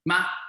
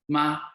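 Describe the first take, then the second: First: The pitch rises from low to high. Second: The pitch stays level and flat. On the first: It means a baby frog. "The second tone is the rising tone" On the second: It means mother. "the first tone is flat"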